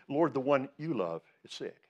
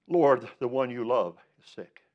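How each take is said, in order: First: "you" set apart and stressed in "one you love"; pointed emphasis. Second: "Lord" hit firmly, a pause before "sick"; slow reading, leaning on "Lord"; emphatic reading. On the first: Shown as a demonstration. Preacher repeats the verse to show the emphasis, pointedly. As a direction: lean on "you love", less force on "Lord". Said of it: "notice the emph-, uh, the emphasis there". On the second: Acted. Preacher reads the sisters' message to Jesus, emphatically. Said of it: "the emphasis there".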